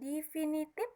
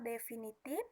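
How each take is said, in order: First: The first vowel is said as i. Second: The first vowel is said as e. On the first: The speaker calls it wrong. "kesalahan pengucapan" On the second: The speaker calls it right. "yang sebenarnya adalah"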